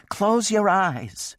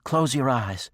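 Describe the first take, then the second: First: High, slow, drawn-out wail. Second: High, loud and pleading; urgent plea. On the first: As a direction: wail it in distress. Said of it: "she wailed". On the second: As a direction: beg him to look away. Woman pleading, embarrassed. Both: A narrator's reading.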